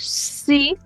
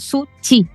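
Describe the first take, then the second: First: The middle consonant is a soft 'sh' sound. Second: The middle consonant is a 'ch' sound. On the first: "nosotros no decimos" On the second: "sino que decimos"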